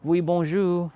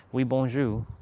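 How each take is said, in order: First: High, louder mock-French hello; imitating Pascal's greeting. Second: Said in the usual way. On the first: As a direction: chirp it like a cheery French brother. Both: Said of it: "always salute me in French".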